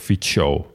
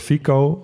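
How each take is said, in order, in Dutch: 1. De c klinkt als tsch. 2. De c klinkt als een k. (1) "Dan wordt het een tsch" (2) "Want zo zouden wij het gewoon uitspreken"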